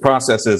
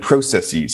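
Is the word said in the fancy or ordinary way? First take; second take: ordinary; fancy. First: The word is said the ordinary, everyday way. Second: The word is said an unusual, fancier way. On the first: This is the usual pronunciation. The speaker calls it right. "Because it's processes and biases" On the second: It is meant to sound more scientific and impressive. The speaker calls it wrong. "they start pronouncing it biases and processes"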